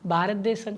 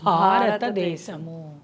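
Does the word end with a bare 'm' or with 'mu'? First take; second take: bare m; mu. First: The word ends in a bare nasal 'm' sound. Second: The word ends with a full 'mu' syllable. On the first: The speaker calls it wrong. "భారతదేశం కాదు మనది" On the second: The speaker calls it right.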